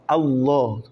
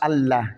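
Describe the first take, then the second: First: The l sound is thick and heavy. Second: The l sound is thin and light. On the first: The speaker calls it right. "Le la de Allah est toujours tafrim" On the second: The speaker calls it wrong. "Pas Allah"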